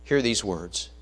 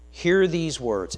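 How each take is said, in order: First: Said in the usual way. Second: Slow, weighty hear these words, hear stressed; slow emphatic repeat. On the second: Shown as a demonstration. Preacher driving the words home to the congregation, slow and heavy. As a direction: lean hard on hear, drawn out.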